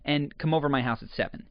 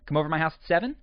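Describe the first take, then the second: First: The pitch falls at the end. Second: The pitch rises at the end. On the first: It tells what is going to happen. "you typically want to do it with a downward inflection" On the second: It sounds like an invitation. "we will add an upward inflection to a statement"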